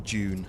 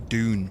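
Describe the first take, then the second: First: The word is said with a British accent. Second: The word is said with an American accent.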